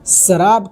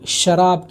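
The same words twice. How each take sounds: First: The word begins with an s sound. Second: The word begins with an sh sound. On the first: "पहली जगह शराब को स से pronounce किया गया है" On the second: "आखिरी शेर में शराब को श से प्रोनाउंस किया गया है"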